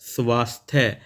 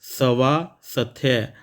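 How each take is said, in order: First: The first s runs straight into the next sound. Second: The first s is said as a full syllable. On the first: The speaker calls it right. "सा और था यहाँ पर आधा रहता है" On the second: The speaker calls it wrong. "यहाँ पर सा पूरा है"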